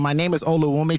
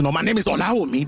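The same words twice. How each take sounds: First: Olawumi in flat Canadian English vowels, oh-la-WOO-mee; my name is Olawumi, the Canadian-style reading. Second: Olawumi the Yoruba way, a-law-EE-mee, a bit quicker; correcting himself to the Nigerian Olawumi. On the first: Debater acting out introducing himself Canadian-style. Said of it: "I go from". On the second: Debater acting out switching to the Nigerian pronunciation. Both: Shown as a demonstration.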